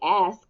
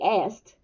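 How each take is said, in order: First: The word ends without an added T sound. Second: The word ends with an added T sound. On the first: "we don't say ask" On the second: "we add a T that's not there"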